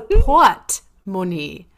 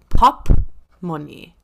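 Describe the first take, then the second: First: The first syllable sounds like port. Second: The first syllable sounds like pop. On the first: The speaker calls it right. "It's a pot money" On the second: The speaker calls it wrong. "I have always been saying pop money"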